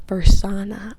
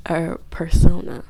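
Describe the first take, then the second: First: "persona" with an "ah" in the stressed middle, per-SAH-na; alternative pronunciation. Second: "persona" with a long "oh" in the middle, per-SOH-na; settled pronunciation. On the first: Speaker unsure of the word, "persona" said per-SAH-na. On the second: Speaker settling on the word, "persona" said per-SOH-na. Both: Shown as a demonstration. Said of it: "a persona or persona".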